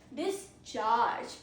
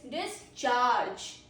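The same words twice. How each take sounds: First: The stress is on the second syllable. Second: The same.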